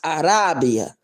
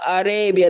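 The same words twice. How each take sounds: First: The name is pronounced the Spanish-Portuguese way. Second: The name is pronounced the plain English way. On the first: The speaker calls it right. "It's supposed to be pronounced Arabia" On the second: The speaker calls it wrong. "that's not how you say my name"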